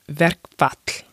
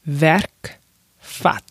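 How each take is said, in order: First: The word is said at normal speed. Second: The word is said slowly and deliberately.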